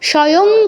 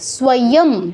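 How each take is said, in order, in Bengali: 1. s-এর পরের v নীরব। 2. s-এর পরের v পুরোপুরি উচ্চারিত হয়। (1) "স্বয়ং কেউ বলবো না" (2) "পূর্ণ উচ্চারণ হবে, স্ব স্ব স্ব"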